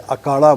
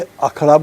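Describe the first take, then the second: First: The middle consonant is unaspirated, a plain k. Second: The middle consonant is aspirated, with a breathy kh. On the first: This is the Mundari form of the word. The speaker calls it right. "महाप्राण नहीं होती है, इसलिए अखाड़ा नहीं बोला जाता है, अकाड़ा बोला जाता है" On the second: This is the Hindi form of the word. The speaker calls it wrong. "Hindi में अखड़ा बोलते हैं"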